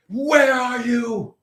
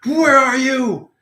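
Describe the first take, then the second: First: High, slow mock shout; hammed-up searching yell; angsty shout. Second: High, slow, louder demand; hammed-up menacing call; angsty hunt. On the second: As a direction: call it out like a hunter with a gun. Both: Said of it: "getting all angsty".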